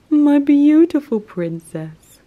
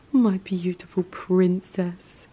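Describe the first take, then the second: First: High, loud cooing pet voice; slow high sing-song endearment. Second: Slow unvoiced whisper. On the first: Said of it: "repeated after whisper". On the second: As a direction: whisper it tenderly to the cat. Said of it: "repeated in baby voice". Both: Real, not acted.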